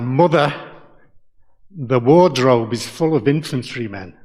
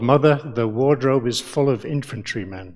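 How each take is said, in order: First: It is said in a broad regional accent. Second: It is said in the speaker's everyday accent.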